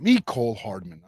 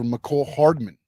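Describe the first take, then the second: First: The first syllable 'Me' is stressed. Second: The first syllable 'Me' is not stressed. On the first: The speaker calls it right. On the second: The speaker calls it wrong.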